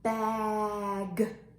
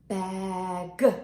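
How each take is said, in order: First: The word is stretched out slowly. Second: The word is said at normal speed.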